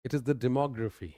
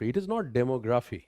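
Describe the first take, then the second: First: "demography" as di-MOG-ra-fi; right pronunciation. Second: "demography" with DEM-o, the common mistake; wrong pronunciation. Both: Shown as a demonstration.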